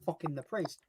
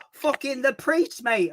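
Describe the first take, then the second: First: Said in the usual way. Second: High, slow Hull delivery; Hull accent character. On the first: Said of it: "I just realised I said". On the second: Acted. Character riffing to his mate, high Hull accent. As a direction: stretch it out as a put-on Hull lad. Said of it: "I can't do that accent".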